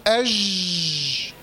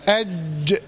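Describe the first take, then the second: First: أج with ج stretched into a long zhhh; slow أج, the sound flowing on unblocked through ج; lax running jeem. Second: أج with ج blocked, then bounced out; lower-pitched أج, firm closure and short echo on ج; stopped jeem with qalqalah. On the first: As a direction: drag the ج of أج out as a zh. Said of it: "في رخاوة، الصوت جرى". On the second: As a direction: trap the ج in أج, then release it. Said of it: "يتحبس. هقول إيه؟". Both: Shown as a demonstration.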